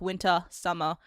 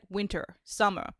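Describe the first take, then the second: First: The words end in an open ah sound. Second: The words end with an r sound. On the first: "anything that I thought ended with ah" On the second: "my brain would start making it"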